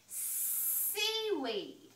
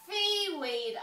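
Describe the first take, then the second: First: The first s sound is clear. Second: The first s sound is distorted. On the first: The speaker calls it right. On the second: The speaker calls it wrong.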